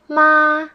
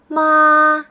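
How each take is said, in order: First: The pitch stays high and level. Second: The pitch stays high and level.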